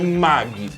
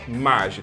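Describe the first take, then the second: First: The g is a hard g sound. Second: The g is a soft j sound. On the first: This is how it is said in Japan. The speaker calls it wrong. "porque G I no Japão tem som de Gui" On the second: It matches the word for magic. The speaker calls it right. "é Magi"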